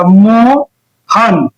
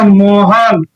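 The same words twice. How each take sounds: First: मोहन very slow, broken into मो and हन; split into syllables. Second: Said in the usual way. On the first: Shown as a demonstration. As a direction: pull मोहन apart syllable by syllable, very slowly. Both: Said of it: "आप इसका खंड जब कीजिएगा तो कैसे होगा".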